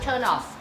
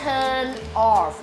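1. เสียง n ตัวท้ายเชื่อมต่อไปยังคำถัดไปอย่างราบรื่น 2. สองคำนี้พูดแยกกัน ไม่เชื่อมกัน (1) "อ่านว่า" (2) "ไม่อ่านว่า"

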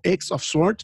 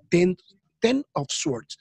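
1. La primera palabra se dice como la letra X. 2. La primera palabra se dice como el número diez. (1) "alguno que lo lea mal dirá que es X of Swords" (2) "ya la pronunciación está confirmada que se llama Ten of Swords"

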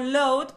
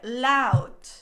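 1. La vocal empieza con un sonido o. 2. La vocal empieza con un sonido a. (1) "Dijo loud probablemente porque se escribe con O también" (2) "se pronuncia con A totalmente española, así que tendría que ser loud"

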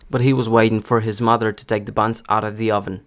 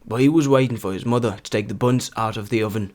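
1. Це читається стандартною американською вимовою. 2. Це читається з північноанглійським акцентом. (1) "другий буде стандартна американська вимова" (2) "третій варіант я хотів би максимально наблизити до вимови північно-англійських діалектів"

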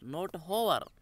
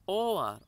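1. यह शब्द एक स्पष्ट h ध्वनि से शुरू होता है। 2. यह शब्द सीधे स्वर ध्वनि से शुरू होता है। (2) "Hour starts with the vowel sound"

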